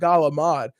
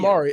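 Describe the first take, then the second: First: It begins with G and ends in D. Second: It begins with K and ends in a vowel. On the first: The speaker calls it wrong. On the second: The speaker calls it right.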